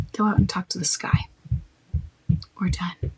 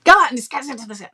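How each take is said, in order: First: Calm, final and unhurried; firm, not rude. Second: Louder and fast; rude. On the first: Shutting down someone pushing his accusations, calm and firm. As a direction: close the topic without heat. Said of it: "And you be firm, not rude". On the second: Wrong way to shut down someone pushing accusations, louder and rude. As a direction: snap it out dismissively. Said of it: "not rude". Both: Shown as a demonstration.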